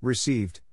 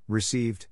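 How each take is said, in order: Both takes have the same delivery.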